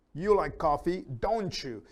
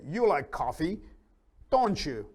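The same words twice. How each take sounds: First: "don't you" run together as "donchu", t and y merging into ch; ch sound in don't you. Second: Said in the usual way. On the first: Shown as a demonstration. Teacher showing students the linked sound, "don't you" said as "donchu". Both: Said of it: "notice the pronunciation is like a ch sound".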